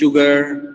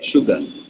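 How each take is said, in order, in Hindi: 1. इसमें कठोर, ज़ोर से बोली गई r ध्वनि है। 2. इसमें कोमल, हल्के से बोली गई r ध्वनि है। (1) "ये लोग बोलते हैं शुगर" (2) "जो यूएस वाले हैं या यूके वाले हैं वो शुगर बोलते हैं"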